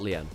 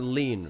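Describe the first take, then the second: First: It does not sound like the word lean. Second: It sounds exactly like the word lean. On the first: The speaker calls it wrong. "not lien" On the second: The speaker calls it right. "lean, not lien. Okay, lean"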